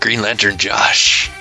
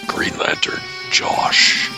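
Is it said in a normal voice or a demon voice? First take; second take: normal voice; demon voice. First: It is said in his normal voice. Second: It is said in a deep demon voice.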